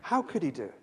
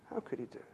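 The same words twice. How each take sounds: First: Said in the usual way. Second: Dropped almost to a murmur, pitch low; softly wondering aloud; hushed repeat. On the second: Acted. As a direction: let the question sink, barely voiced. Preacher repeats the question, then drops to near-silent.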